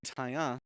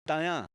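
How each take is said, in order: First: The first consonant is a plain T. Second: The first consonant blends T and D. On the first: The speaker calls it wrong. "We're not saying Taya" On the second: The speaker calls it right. "Kind of sounds like a T and a D mixed in there"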